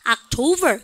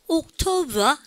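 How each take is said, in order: First: It is said with an American accent. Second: It is said with a British accent.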